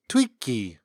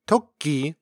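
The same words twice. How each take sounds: First: "twiki" with a wi glide for the o; Jala umlauted pronunciation. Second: Said in the usual way. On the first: Shown as a demonstration. Showing the Jala way to say rabbit, umlauted pronunciation. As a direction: say "twiki", first vowel pulled toward ee. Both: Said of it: "could be pronounced twiki".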